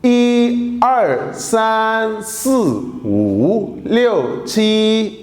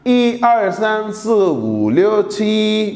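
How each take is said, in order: First: The numbers are said at a slower pace. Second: The numbers are said at a faster pace.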